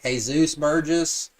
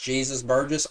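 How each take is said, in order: First: Jesus is said with a Spanish pronunciation. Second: Jesus is said with an English pronunciation. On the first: "like a Mexican wrestler, like a luchador. So it should be like" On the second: "or if it should just be pronounced"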